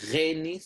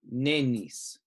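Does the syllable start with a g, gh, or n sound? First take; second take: gh; n. First: The syllable starts with a throaty gh sound. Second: The syllable starts with an n sound. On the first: "not a Gha" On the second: "not a N sound"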